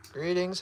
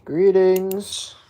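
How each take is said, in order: First: Said in the usual way. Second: Loud announcer-like hello; loud greeting. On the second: Real, not acted. Owner greeting viewers, loud and projected. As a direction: project it to the viewers, much louder.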